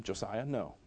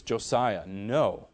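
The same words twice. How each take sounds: First: Said in the usual way. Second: Firmer, lower-pitched reprimand; sterned-up voice, falling firmly; stern parent. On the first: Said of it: "and I told him". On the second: Retold or imitated. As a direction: correct a toddler firmly, without shouting. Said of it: "sterned up my voice".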